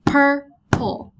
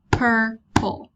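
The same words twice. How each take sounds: First: Purple split into two loud beats, PUR-PLE; syllables clapped out. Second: Said in the usual way. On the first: Shown as a demonstration. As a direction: say Purple slowly, one clap per syllable. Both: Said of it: "I hit the table twice when I say that".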